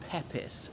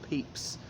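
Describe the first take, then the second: First: The surname is said in the rare family way. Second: The surname is said in the common way. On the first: This is how the family itself says the name. "one of his descendants who says the surname is pronounced Pepys" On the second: This is how nearly everyone says the name. "everyone apart from that pronounced it um, Pe- Pepys"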